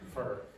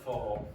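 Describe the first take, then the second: First: The vowel is short and the R is pronounced. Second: The vowel is lengthened and the R is dropped. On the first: "you must pronounce the last consonant" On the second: "they will extend the vowel sound here, but they'll eliminate the R"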